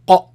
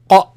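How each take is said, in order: Both takes have the same delivery.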